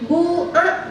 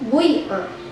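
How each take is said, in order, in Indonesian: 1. Vokal pertama adalah bunyi u yang jelas. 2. Vokal pertama campuran dari u ke i. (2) "ismam. Harkat baina dhom wal kaf"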